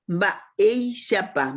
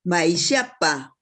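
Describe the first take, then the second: First: "Baishapa" drawn out slowly, weight on the E sound; slow "Baishapa" with the E held; stressed syllable. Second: Said in the usual way. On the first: Shown as a demonstration. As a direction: stretch "Baishapa" syllable by syllable, leaning on its middle E. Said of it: "E cargamos más la voz". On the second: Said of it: "en qué sílaba se carga la voz".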